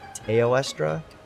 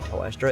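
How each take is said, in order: First: The name begins with a 'tay-oh' sound. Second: The name begins with a single 'toe' sound. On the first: The speaker calls it right. "It's T E O, not T O E" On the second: The speaker calls it wrong. "I always say Toestra"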